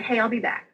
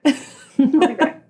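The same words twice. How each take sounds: First: Said in the usual way. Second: Drawn out and higher with a laugh; laughing sing-song goodbye. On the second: Retold or imitated. Telling coworkers she'll be back, laughing sing-song. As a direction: tease it out slowly while laughing.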